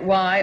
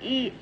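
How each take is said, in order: First: The letter is said as "why". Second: The letter is said as "ee". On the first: This is the American way of saying the name. "in America we will be calling it Y" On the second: This is the French way of saying the name. "The French pronunciation of the letter Y"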